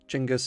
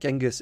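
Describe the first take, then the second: First: The name is said the Mongolian way. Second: The name is said the English way. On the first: "Genghis is Mongolian, the pronunciation" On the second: "Genghis is how you pronounce it in English"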